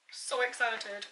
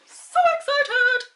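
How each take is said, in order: First: Understated excitement. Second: High, drawn-out excited squeal; sing-song excitement. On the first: Vlogger on her lip colour, understated excitement. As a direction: say it softly, almost to yourself. Repeats the phrase two ways. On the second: Vlogger on her lip colour, sing-song excitement. Repeats the phrase, far bigger. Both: Real, not acted.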